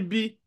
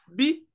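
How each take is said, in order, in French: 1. Le mot se dit sur un ton moyen. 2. Le mot se dit sur un ton haut. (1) "Je n'ai pas dit bi" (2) "c'est le ton haut"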